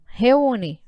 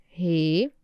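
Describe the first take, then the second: First: Said in the usual way. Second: "Re-u-ne" low, with long gaps; each syllable of "Re-u-ne" on its own, held; split into syllables. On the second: Shown as a demonstration. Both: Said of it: "Vai separar".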